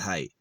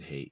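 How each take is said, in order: First: The vowel sounds like the one in 'eye'. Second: The vowel sounds like the one in 'day'. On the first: "You can say it height, like it's supposed to be height" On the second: "I say it hate"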